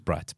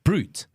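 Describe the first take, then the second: First: The vowel is short, like in 'cat'. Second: The vowel is long, like in 'boot'. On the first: The speaker calls it wrong. "I honestly thought it was Brat because there's no E" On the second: The speaker calls it right. "That deodorant is pronounced Brute"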